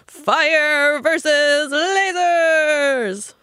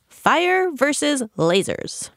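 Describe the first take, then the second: First: It is said loudly, like a stadium announcer. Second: It is said in a calm, normal voice. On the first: The speaker calls it right. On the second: The speaker calls it wrong.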